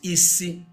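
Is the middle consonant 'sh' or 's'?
s. It has the standard 's' sound.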